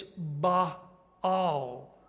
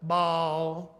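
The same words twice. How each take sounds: First: "Baal" split slowly into two syllables, bah-al; "Baal" spelled out in sound, two careful beats. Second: "Baal" as one drawn-out syllable, bahl, in a lazy Southern drawl; "Baal" said the Alabama way, one slurred syllable. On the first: Teacher correcting the class's Southern version, slow two-syllable "Baal". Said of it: "Two syllables". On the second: Teacher showing the class the Alabama way to say it, drawled single syllable. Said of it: "A little drawl in there". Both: Shown as a demonstration.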